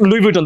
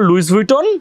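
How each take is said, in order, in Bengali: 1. Louis-এর শেষের s নীরব। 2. Louis-এর শেষের s উচ্চারিত হয়। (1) "সো এটা লুই ভিটন, তাই না?" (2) "এটাকে আমরা লুইস ভুইটন বলবো না"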